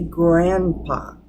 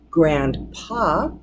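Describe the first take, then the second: First: The D sound is left out entirely. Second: The D sound is clearly pronounced.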